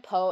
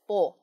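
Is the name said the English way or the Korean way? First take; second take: English; Korean. First: The name is said the English way. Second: The name is said the Korean way.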